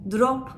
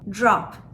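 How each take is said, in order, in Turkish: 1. dr düz bir d sesidir. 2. dr sesi j sesine yakın çıkar. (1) "Drop demiyoruz" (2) "J sesi çıkarıyor"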